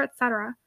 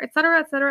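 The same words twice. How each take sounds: First: "et cetera" dropped soft and trailing away; "et cetera" fading to almost nothing. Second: Said in the usual way. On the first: A narrator's reading. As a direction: let "et cetera" fall away quietly. Narrator lists items, trailing off.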